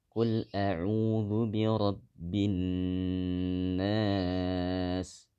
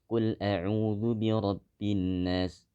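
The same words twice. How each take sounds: First: The nasal n is held with a long hum. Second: The nasal n is short with no hum. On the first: The speaker calls it right. "Seharusnya demikian" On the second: The speaker calls it wrong. "dibaca tanpa mendengung"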